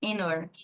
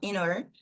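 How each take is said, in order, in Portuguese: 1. O h é omitido, ligando-se a 'inner'. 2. O h é omitido, ligando-se a 'inner'.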